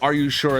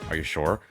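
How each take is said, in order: First: It sounds polite and neutral. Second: It sounds doubtful and judgmental. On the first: The listener just double checks the order. "like retail speak" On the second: The listener questions the choice itself. "not only did she have that look"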